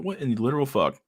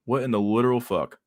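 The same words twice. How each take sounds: First: Stunned disbelief. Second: Said in the usual way. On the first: Retold or imitated. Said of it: "I'm like". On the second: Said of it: "repeat of quote".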